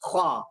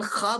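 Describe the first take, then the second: First: The kh is followed by a w-glide before a. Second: The kh is followed directly by a plain a. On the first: "ख़ा के बजाय ख्वा पढ़ें" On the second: "ख़ा बोलते हैं"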